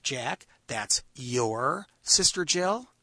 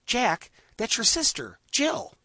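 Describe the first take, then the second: First: Slow, with "Jill?" rising; slow question. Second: "Jill" jumps up high; high, slow exclamation. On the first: Storyteller contrasting a slow questioning take. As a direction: ask it slowly. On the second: Storyteller showing how intensity changes meaning. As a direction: say it in high surprise. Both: Shown as a demonstration. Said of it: "I can say".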